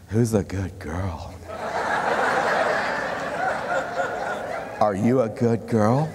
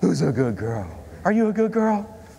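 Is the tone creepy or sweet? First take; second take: creepy; sweet. First: The voice sounds creepy and unsettling. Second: The voice sounds sweet and affectionate. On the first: The speaker seems like someone to call the police on. "Now change the tone" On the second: The speaker is a loving pet owner. "What do we say to our dog?"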